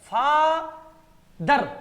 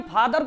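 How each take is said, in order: First: "फादर" very slow, held फा, pause, loud दर; pause between syllables. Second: Said in the usual way. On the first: Shown as a demonstration. Teacher showing where to stop, "फादर" as फा, pause, दर. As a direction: break "फादर" into फा ... दर with a clear stop. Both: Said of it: "रुकना पड़ता है ना".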